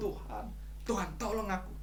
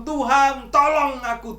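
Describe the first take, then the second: First: Much softer, sinking prayer; soft plea. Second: Loud, high cry for help. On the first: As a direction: let the cry fade to a hushed plea. (permohonan lirih dan pelan) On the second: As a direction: shout the plea up to God. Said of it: "kita teriak". (berteriak keras minta tolong) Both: Retold or imitated.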